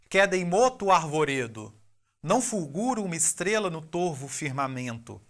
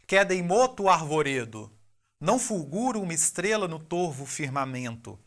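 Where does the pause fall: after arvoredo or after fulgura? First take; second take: after arvoredo; after arvoredo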